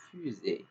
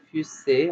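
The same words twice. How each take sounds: First: Fusée with a buzzing Z; correct fusée. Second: Fusée with a hissed S; mispronounced fusée. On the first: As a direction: say fusée with a voiced "z" sound, fu-zée. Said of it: "on va dire fusée". (« fusée » prononcé avec le son Z) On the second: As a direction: say fusée wrongly with an unvoiced "s" sound, fu-ssée. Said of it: "on va pas dire fusée". (« fusée » prononcé avec le son S) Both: Shown as a demonstration.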